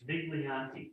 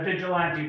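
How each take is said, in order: First: The name sounds like vig-lee-AN-tee. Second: The name sounds like the word vigilante. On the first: The speaker calls it right. "It's Viglianti" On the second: The speaker calls it wrong. "Everybody says the Vigilante"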